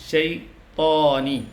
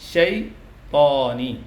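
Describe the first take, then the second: The two takes are said the same way.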